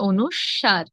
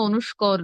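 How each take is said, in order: First: The last syllable sounds like 'swar'. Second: The last syllable sounds like 'skor'. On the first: The speaker calls it right. "কি হবে? অনুস্বার" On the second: The speaker calls it wrong. "অনুস্বর কিংবা অনুস্কর নয়"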